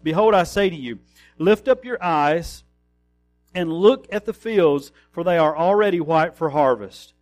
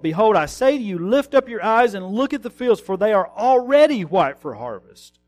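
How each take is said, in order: First: It is read in a calm, plain way. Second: It is read with excited, exclaiming energy.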